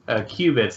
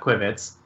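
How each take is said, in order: First: The first syllable sounds like 'queue'. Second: The first syllable sounds like 'quick'. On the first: The speaker calls it right. "they're pronounced qubits" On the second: The speaker calls it wrong. "not quibits"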